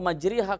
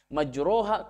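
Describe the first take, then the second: First: The vowel after r is a full i. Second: The vowel after r is a full a. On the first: "ke kasroh secara sempurna" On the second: "ke fathah sempurna"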